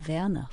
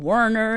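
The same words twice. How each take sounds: First: The name is said with a German pronunciation. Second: The name is said with an American pronunciation. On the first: The speaker calls it right. "others would try very diligently to say" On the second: The speaker calls it wrong. "make it, you know, sound very American"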